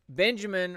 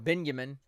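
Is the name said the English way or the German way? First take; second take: English; German. First: The name is said with an English pronunciation. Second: The name is said with a German pronunciation.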